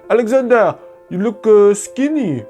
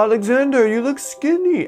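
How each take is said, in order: First: It is said in a Haitian accent. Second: It is said in a plain American accent.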